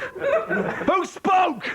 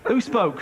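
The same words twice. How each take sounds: First: High-pitched laughing repeat of Who spoke; mock shocked squeak. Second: Said in the usual way. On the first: Host teasing the audience member in a high laughing squeak.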